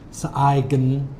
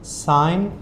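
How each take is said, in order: First: A g sound is heard before the n. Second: No g sound is heard in the word. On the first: The speaker calls it wrong. "I have a lot of students that maybe say" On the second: The speaker calls it right. "Both of these have a silent letter"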